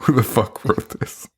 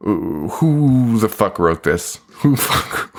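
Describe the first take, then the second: First: Said in the usual way. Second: Slow mock disgust. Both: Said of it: "it's just like".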